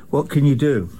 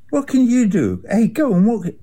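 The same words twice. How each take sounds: First: Said in the usual way. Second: "What can you do?" jumps high, exasperated; exasperated high cry. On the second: Real, not acted. Venting frustration about Israel, exasperated high cry. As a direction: throw up your hands, voice shooting up.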